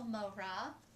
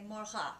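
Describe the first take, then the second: First: The R is an English-style R. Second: The R is made at the back of the throat. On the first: "You hear the R in the middle" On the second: "at the back of the throat"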